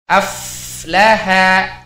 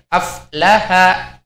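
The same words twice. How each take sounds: First: The f sound flows with audible breath. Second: The f sound is cut short, breath held. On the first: The speaker calls it right. "huruf fa-nya harus mengalir nafasnya" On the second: The speaker calls it wrong. "tidak boleh aflaha"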